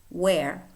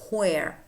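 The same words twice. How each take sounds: Both takes have the same delivery.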